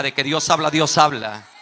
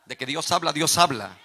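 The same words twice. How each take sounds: First: Loud, shouted proclamation to the congregation; shouted preacher's refrain; emphatic preaching repetition. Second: Firm preacher's proclamation, moderately raised; measured first statement of a sermon refrain; preaching declaration. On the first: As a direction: drive the refrain home at full force. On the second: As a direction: declare it firmly to the congregation. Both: Real, not acted. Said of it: "Se lo voy a volver a repetir".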